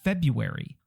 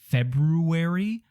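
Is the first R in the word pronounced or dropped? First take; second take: Dropped; Pronounced. First: The first R sound is dropped. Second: The first R sound is pronounced. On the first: "or is it just February?" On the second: "What is the first R for?"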